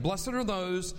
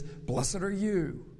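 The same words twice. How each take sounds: First: "Blessed are those," with "those" leaned on; stress on those. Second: "Blessed are you." slow, "you" landed firmly; stress on you. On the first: Pastor contrasting the two verses, stressing "those". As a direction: set "those" up against "you". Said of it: "I like the way the Lord Jesus does that". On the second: Pastor contrasting the two verses, stressing "you". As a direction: land the "you" slowly. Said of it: "and then he says". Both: Shown as a demonstration.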